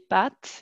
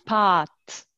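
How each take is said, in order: First: The a vowel is short and clipped. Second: The a vowel is long and drawn out. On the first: This is how speakers in France say it. "Et nous, on dit des pâtes" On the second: This is how Quebec speakers say it. "ils le prononcent encore très bien en fait. Ils disent des"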